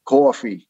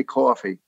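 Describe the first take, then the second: First: Put-on "coffee" louder, in a laid-on New York accent; exaggerated New York accent. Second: Said in the usual way. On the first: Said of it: "we would really pour it on". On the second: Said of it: "They'd, like, say".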